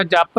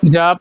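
First: ਜਪ tightened to "japp"; wrong tight reading. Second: ਜਪ with a soft, single p; soft pronunciation. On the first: Teacher warning learners of the mistake, tight pronunciation. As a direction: double the p of ਜਪ. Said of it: "ਨਹੀਂ ਬੋਲਣਾ". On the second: Teacher showing learners the right word, soft pronunciation. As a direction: say ਜਪ loosely, p not doubled. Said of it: "ਜਪ ਨੂੰ ਪੋਲਾ ਬੋਲਣਾ ਹੈ". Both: Shown as a demonstration.

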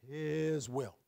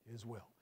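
First: "His will" with the weight on "His"; stress on His will. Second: "His will" repeated softer and lower, letting it sink in; soft echo. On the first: Pastor answering his own question for the congregation. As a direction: punch "His" to show whose will it is. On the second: Pastor softly repeating the answer to his listeners. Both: Shown as a demonstration. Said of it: "where's the emphasis?".

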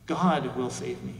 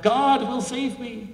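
First: Said in the usual way. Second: Slow, high, loud defiant yell; yelling back. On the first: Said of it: "the man once again responds". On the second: Retold or imitated. Man on his chimney yells back at the helicopter crew, slow high yell. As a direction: yell it up stubbornly, drawn out. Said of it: "And he yells back".

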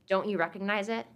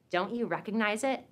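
No difference in how they are said.

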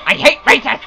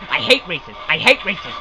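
First: Rising frustration. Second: Low, soft grumbled chant; sullen muttering. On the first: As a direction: grumble breaking into a rising outburst. Same words, frustration building. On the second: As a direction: grumble it to yourself. Muttering after losing again. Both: Real, not acted.

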